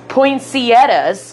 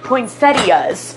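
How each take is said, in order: First: Slow, careful Poinsettias. with a clear ee before the tt; spelling out Poinsettias. syllable by syllable; careful pronunciation. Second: Slow Poinsettias. run together, no ee, falling; Poinsettias. drawn out and falling; second pronunciation. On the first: Retelling how she said it, slow poinsettia. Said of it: "she picked up poinsettias and said". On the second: Her second try at the word, slow and falling. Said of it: "said it another time and it was like". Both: Retold or imitated.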